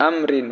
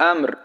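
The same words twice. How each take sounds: First: আমরিন with its -rin ending sounded; আমরিন as when reading on without pausing; full ending, no stop. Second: আমর stopped with m and r both vowelless; আমর ending on a resting r; waqf stop form. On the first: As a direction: read আমরিন through to the final n. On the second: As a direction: drop the -in ending and close on আমর. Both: Shown as a demonstration. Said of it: "ওয়াকফ করলে".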